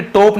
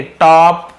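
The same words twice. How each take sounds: First: "टॉप" said tope, with a closed long o; teacher giving "टॉप" a wrong long o; wrong pronunciation. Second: "टॉप" loud and drawn out with open aw; corrected, emphatic "टॉप" with aw; right pronunciation. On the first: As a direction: show the mistake, "टॉप" as higher-pitched tope. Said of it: "टॉप नहीं बोल रहा हूँ". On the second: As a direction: stretch the rounded aw in "टॉप". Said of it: "ध्यान देंगे". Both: Shown as a demonstration.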